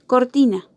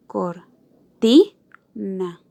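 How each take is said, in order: First: Said in the usual way. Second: Cor... TI... na, very slowly; cortina split into syllables. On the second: Shown as a demonstration. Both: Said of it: "en estas tres sílabas".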